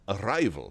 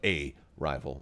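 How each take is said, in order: First: The 'a' is joined into one word. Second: The 'a' is set apart from the word. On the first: Someone showing up. "as opposed to he shows up and he has arrived" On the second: An opponent or competitor. "not arrival, but a rival"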